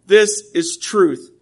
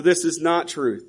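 First: "This is truth" said slowly, each word weighted; "This is truth" laid down slow and certain; firm declaration. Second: "This is not truth" dropped softer, stress on "This"; quiet denial. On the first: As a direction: plant "This is truth" deliberately, half speed. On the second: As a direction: let "This is not truth" fall away softly. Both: Shown as a demonstration. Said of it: "you gotta be able to say".

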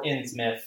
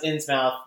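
First: Innsmouth said as "INNZ-mith"; reduced ending. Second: Innsmouth with a full "mouth" ending; pronounced as spelled. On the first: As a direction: shorten the end of Innsmouth to "mith". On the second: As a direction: say Innsmouth to rhyme with "south". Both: Shown as a demonstration. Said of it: "it can be pronounced".

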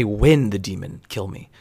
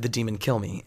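First: "When" stretched and stressed at the front; slower line, weight on "When". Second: Said in the usual way. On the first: Retold or imitated. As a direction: lean slowly on "When" to single it out. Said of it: "he didn't say". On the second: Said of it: "He just said".

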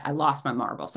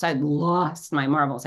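First: Said in the usual way. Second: "lost" drawn out for emphasis; emphatic repeat, stretching the word "lost"; stress on LOST. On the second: Real, not acted. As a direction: lean hard and long on "lost".

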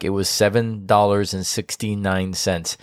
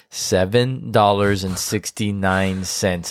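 First: Said in the usual way. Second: "Seven dollars and sixty-nine cents" said slowly, each word weighed; slow it down for disbelief; emphatic repeat. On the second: Real, not acted. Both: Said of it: "trying to raise a volume".

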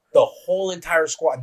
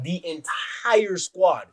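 First: Said in the usual way. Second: "entire" drawn way out for emphasis; slow right down and stretch "entire"; "entire" stretched wide, each syllable leaned on; stress on entire. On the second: Real, not acted. Repeats it for emphasis.

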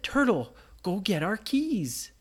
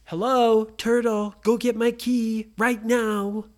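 First: Said in the usual way. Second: Louder, slow commanding order; Brady rudely ordering the turtle; bossy demand. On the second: Acted. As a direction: boss the turtle around.

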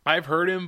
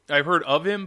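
First: Said in the usual way. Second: "of" punched as a correction; stress on OF. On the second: Real, not acted. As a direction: lean on the word "of".

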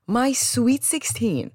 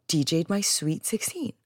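First: "My Sweet sixteen" drawn out slowly, pitched high; incredulous repeat. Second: Said in the usual way. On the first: Retold or imitated. Guest recognizing the party DJ, repeating "My Sweet sixteen" in slow disbelief.

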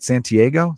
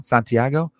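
First: "Santiago" as san-tee-AY-go, English vowels. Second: "Santiago" as sahn-tee-AH-go, open Spanish vowels. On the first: Asking himself how to say the name, "Santiago" anglicized as san-tee-AY-go. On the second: Correcting himself to the native name, "Santiago" as sahn-tee-AH-go. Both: Shown as a demonstration. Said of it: "I have to say it like that".

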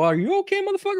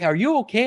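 First: Much higher, hammed-up indignant echo; squeaky mock-offended comeback; mock outraged. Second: Said in the usual way. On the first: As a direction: throw his question back, offended. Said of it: "And I go". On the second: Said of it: "the guy looked back".

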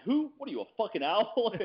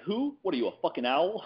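First: High mock outburst; Pacino line quoted. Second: High, mock outraged bark; Al Pacino quote. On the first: Answering Dale at the UFC party with the Heat line, high mock outrage. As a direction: blurt it like the movie scene. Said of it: "I'm like". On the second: Pacino mocking a guy who says who, high mock outrage. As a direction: explode like Pacino in Heat. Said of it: "He's like".

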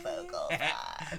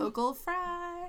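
First: Low creaky fry; vocal fry. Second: Vocal fry. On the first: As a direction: drag the words out in a creak. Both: Shown as a demonstration.

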